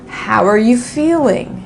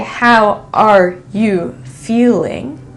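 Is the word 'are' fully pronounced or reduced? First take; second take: reduced; fully pronounced. First: The word 'are' is reduced and linked. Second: Every word is said fully and separately. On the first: The speaker calls it right. "I'll say" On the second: The speaker calls it wrong. "I won't say"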